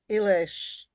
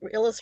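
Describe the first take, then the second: First: The name ends with an 'sh' sound. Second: The name ends with a plain 's' sound. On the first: "An S in Hungarian is an S H" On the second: "Illis rhymes with Phyllis"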